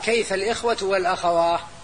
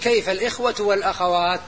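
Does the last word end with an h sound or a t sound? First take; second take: h sound; t sound. First: The final word ends with an h sound. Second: The final word ends with a t sound. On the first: This is a rare dialect form of the plural. "لكن قال" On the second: This is the standard form of the plural. "الأصل أنه يقول"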